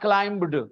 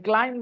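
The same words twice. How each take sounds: First: A b sound is pronounced in the word. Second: No b sound is pronounced in the word. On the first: The speaker calls it wrong. "not climbed" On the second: The speaker calls it right. "B is not pronounced"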